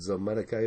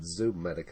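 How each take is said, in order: First: The first vowel sounds like 'oh'. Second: The first vowel sounds like 'oo'. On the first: This is how the speaker says it. The speaker calls it right. "I pronounce it Zomedica" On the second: This is how other people say it. The speaker calls it wrong. "I've heard other people pronounce it Zoomedica"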